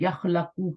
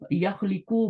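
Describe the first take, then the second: First: The second-syllable vowel is an a sound. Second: The second-syllable vowel is an i sound. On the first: "उनको खलका यखलकू मुश्किल लगा" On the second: "मेरी जुबान से नहीं निकल रहा"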